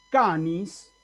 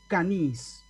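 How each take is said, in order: First: "canis" stressed on the first syllable, CA-nis; acento en la primera sílaba. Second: "canis" wrongly stressed on the final syllable, ca-NIS; stress on last syllable. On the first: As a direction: say "canis" as a grave word, stress on CA. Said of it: "ni se me puede ocurrir leer ahí canis". ("canis" con acento en la primera sílaba, CÁ-nis) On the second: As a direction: misread "canis" as an aguda, punching NIS. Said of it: "ni se me puede ocurrir leer ahí". ("canis" mal leído como aguda, ca-NÍS) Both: Shown as a demonstration.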